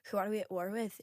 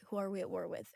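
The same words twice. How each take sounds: First: It is spoken in a Scottish accent. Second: It is spoken in an American accent. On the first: "if I want to do a Scottish, I go" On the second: "if I'm trying to do my American, I'll be like"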